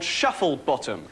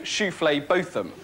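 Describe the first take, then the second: First: The name starts like the everyday word 'shuffle'. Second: The name starts with a fancy 'shoo-flay' sound. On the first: This is how the name is written. "there are people in the phone directory called Shufflebottom" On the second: The owners dodge mockery by changing how it is said. "they will always insist on their name actually being"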